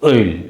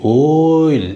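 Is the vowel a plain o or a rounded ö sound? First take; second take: rounded ö; plain o. First: The vowel is a front rounded ö sound. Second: The vowel is a plain back o sound. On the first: The speaker calls it right. "ஒயில் ஒயில் ஒயில் அது மாதிரி" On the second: The speaker calls it wrong. "ஓயில் அப்படி சொல்லக்கூடாது"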